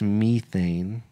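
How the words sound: The word is said with a British pronunciation. "If you're British"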